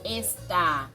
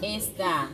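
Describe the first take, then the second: First: The stress is on the second syllable. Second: The stress is on the first syllable. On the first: It is the verb meaning 'is'. "on fait plus de force dans A" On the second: It is the demonstrative meaning 'this'. "on fait plus de force dans E que dans A"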